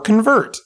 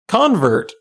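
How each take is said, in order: First: The stress is on the second syllable. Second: The stress is on the first syllable. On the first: It names the act of changing someone. "both a noun and a verb" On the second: It names a person who changed belief. "both a noun and a verb"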